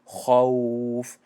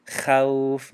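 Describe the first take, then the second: First: خوف slow, with a thick full-mouth kha; خوف drawn out with a heavy kha. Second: خوف with a thin light kha; خوف with a flat thin kha; wrong light kha. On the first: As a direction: round and fill the kha of خوف. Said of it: "دهان پر شد وقتی خا". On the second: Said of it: "خوف نگفتیم". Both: Shown as a demonstration.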